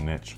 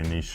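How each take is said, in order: First: The word gets a plain, everyday pronunciation. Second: The word gets a posh-sounding pronunciation. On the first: This is the speaker's usual way of saying it. "I always say niche" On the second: This is how fancy people say it. "fancy people say niche"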